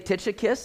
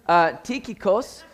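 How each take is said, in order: First: The name is said with an English pronunciation. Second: The name is said with a Greek pronunciation. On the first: "some people say Tychicus" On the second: "In the Greek, it's kind of tikikos"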